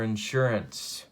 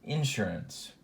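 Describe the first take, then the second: First: It is said in a general American accent. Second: It is said in a Central Illinois accent.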